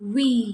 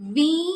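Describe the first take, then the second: First: The first sound is made with rounded lips. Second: The first sound is made without rounded lips. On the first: The speaker calls it right. "നമ്മുടെ lips ഉരുട്ടിയിട്ട് പറയുക, round ആക്കിയിട്ട് പറയുക" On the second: The speaker calls it wrong. "അപ്പോൾ നമ്മൾ we എന്ന് പറയരുത്"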